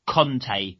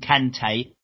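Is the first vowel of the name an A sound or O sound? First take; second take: O sound; A sound. First: The first vowel sounds like the o in con. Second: The first vowel sounds like the a in can. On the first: The speaker calls it wrong. "everyone calls him Conte. No" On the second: The speaker calls it right. "Call him Kante"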